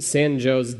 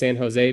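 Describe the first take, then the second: First: The name is said the local Midwestern way. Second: The name is said the Californian way. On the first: The speaker calls it wrong. "neither of which do we say correctly" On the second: The speaker calls it right. "because that's what it is in California"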